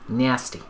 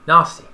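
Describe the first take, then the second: First: The first vowel sounds American, like in 'cat'. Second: The first vowel sounds British, like in 'ask'. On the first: "like my American associates would say" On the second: "The A in nasty is like the Brits say ask"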